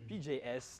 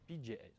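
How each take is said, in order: First: The letters are said with an English accent. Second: The letters are said with a French accent. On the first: The speaker calls it right. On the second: The speaker calls it wrong.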